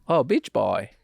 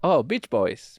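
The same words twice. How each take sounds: First: A weak, near-plain Chinese accent; Chinese accent, barely there. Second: A faint put-on Chinese accent; Chinese accent, lightly done. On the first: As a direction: try a Chinese accent and drop the S. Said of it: "I didn't hear a difference". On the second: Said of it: "It was the same accent". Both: Shown as a demonstration.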